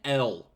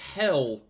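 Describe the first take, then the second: First: The word starts without an H sound. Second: The word starts with a clear H sound. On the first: The speaker calls it wrong. "That's not fucking L. Nobody says that" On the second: The speaker calls it right. "They're just not enunciating the H"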